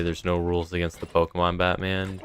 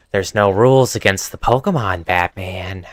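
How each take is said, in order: First: Said in the usual way. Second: Louder put-on voice for a comic villain; requested villain impression. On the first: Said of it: "hear you say that". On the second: Shown as a demonstration. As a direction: play the villain taunting Batman. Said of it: "a sudden urge to hear you say that".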